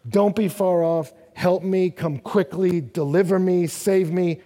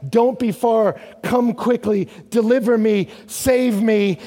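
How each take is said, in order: First: Said in the usual way. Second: Louder, higher pleas; crying out for help. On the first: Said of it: "No, wait a second". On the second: Acted. Psalmist crying out to God, loud pleading. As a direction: plead for rescue, short and urgent. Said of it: "So he's crying out".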